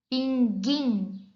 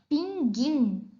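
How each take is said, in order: Both takes have the same delivery.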